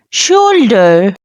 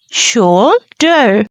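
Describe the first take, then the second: First: Said in the usual way. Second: "Shoulder" split into two syllables with a short break. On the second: Shown as a demonstration. Teacher has learners repeat the word, "Shoulder" broken into syllables. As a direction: say "Shoulder" in two separate parts, shoul, der. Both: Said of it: "Repeat it with me".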